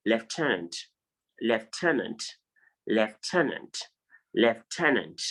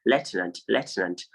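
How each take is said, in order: First: Lieutenant as lef-TEN-ant; F before the T in lieutenant, stress on TEN; correct pronunciation drill. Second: Lieutenant as LET-uh-nant, no F; common pronunciation. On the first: Teacher drilling students, lieutenant as lef-TEN-ant. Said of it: "So you pronounce it as". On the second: Teacher citing what you mostly hear, lieutenant without its F. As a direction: drop the F from lieutenant. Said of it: "is people saying". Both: Shown as a demonstration.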